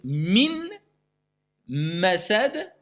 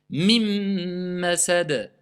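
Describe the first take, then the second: First: The n sound is clearly pronounced before the m. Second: The n merges into a doubled m sound. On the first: The speaker calls it wrong. "au lieu de dire min masad" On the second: The speaker calls it right. "le noun, il a été mangé, il a été assimilé"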